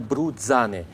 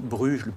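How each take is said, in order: First: The name is pronounced the Italian way. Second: The name is pronounced the French way. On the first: "je prononcerai peut-être à l'italienne" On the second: "pour le dire à la française"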